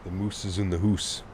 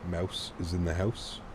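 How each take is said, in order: First: It is said in an exaggerated Canadian accent. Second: It is said in the speaker's ordinary accent.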